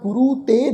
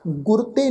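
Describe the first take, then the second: First: The first word ends in a long vowel. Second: The first word ends in a consonant. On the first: The speaker calls it right. "ਰਾਰੇ ਦੇ ਪੈਰ ਚ ਦੁਲੈਂਕੜ ਦੀ ਮਾਤਰਾ" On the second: The speaker calls it wrong. "ਨਹੀਂ ਉਚਾਰਨ ਕਰਨਾ"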